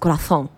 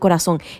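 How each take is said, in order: First: The z is said with a lisped th. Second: The z is said as a plain s. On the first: "They have that weird lisp" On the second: "It's not corazón"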